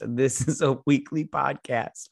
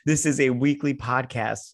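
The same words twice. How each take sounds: First: Slow, slurry tipsy podcast intro; a few drinks in, words dragging. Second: Said in the usual way. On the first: Real, not acted. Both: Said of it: "I'm so drunk right now".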